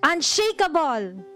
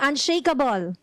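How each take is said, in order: First: The word is said loudly with strong energy. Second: The word is said at normal, plain energy. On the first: "one more time with power" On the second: "Can you say that with me?"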